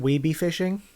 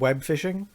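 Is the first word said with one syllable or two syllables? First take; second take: two syllables; one syllable. First: The first word is stretched into two syllables. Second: The first word is said as one syllable.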